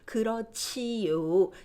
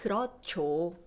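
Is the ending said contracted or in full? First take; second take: in full; contracted. First: The ending is said fully as two syllables. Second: The ending is squeezed into one syllable. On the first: "enunciating 지요" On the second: "You'll hear more like 그렇죠"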